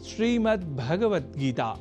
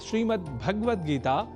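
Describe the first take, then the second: First: The vowel after 'ga' is clearly pronounced. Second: The vowel after 'ga' is dropped. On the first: The speaker calls it right. "ध्यान से पुनः सुनिए" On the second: The speaker calls it wrong. "भगवत पद में गकार से संयुक्त अ स्वर का हम लोप कर देते हैं"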